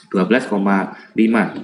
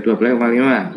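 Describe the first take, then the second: First: Said in the usual way. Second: "dua belas koma lima" rushed and slurred together; unclear articulation. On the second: Shown as a demonstration. Health worker misreporting a lab result to a colleague, words blurred together. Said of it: "artikulasinya nggak jelas, jadi".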